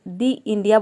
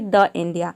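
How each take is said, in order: First: 'The' is said with a long 'ee' vowel. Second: 'The' is said with a short 'uh' vowel. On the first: The speaker calls it right. "दी India बोलेंगे" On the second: The speaker calls it wrong. "न कि द India"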